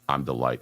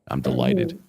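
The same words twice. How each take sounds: First: It is said flatly, without real delight. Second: It is said with genuine, happy delight.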